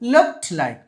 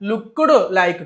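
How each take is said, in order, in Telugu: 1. 'Looked' చివర సాధారణ హల్లుల కలయిక ఉంటుంది. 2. 'Looked' చివర ఒక అదనపు అచ్చు కలుస్తుంది.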